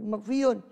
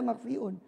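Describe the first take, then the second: First: A y-glide comes before the final vowel. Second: A glottal stop comes before the final vowel. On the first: The speaker calls it right. "tapi makfiyun" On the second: The speaker calls it wrong. "tidak ada makfiun"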